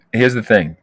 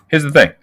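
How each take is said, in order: First: Said in the usual way. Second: Louder, punchy "Here's the thing"; emphatic call. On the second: Real, not acted. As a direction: slam down "Here's the thing" to get attention. Repeats phrase to grab attention.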